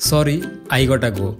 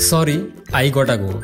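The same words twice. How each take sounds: Both takes have the same delivery.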